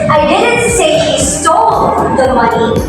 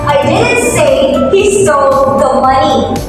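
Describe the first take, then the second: First: The stress falls on the word stole. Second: The stress falls on the word money. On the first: He took the money without stealing it. "the word is emphasized the word is stole" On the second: He stole something other than money. "putting emphasis on the money"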